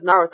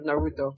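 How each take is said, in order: First: The name is said with Japanese-style pronunciation. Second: The name is said with English-style pronunciation. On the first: The speaker calls it right. "pronounces all the names right" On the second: The speaker calls it wrong. "instead of"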